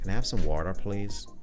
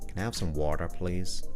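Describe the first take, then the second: First: It is said in an English accent. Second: It is said in an American accent. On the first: "The English people pronounce their T's more" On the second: "It's a very bad American accent"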